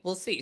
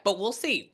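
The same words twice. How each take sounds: First: Softer repeat. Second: Said in the usual way. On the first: Real, not acted. Medium repeating the client's reading softly to herself.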